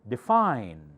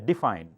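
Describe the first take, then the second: First: The stress is on the second syllable. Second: The stress is on the first syllable. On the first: The speaker calls it right. "Fine has the accent" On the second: The speaker calls it wrong. "do not say define. D does not have the accent"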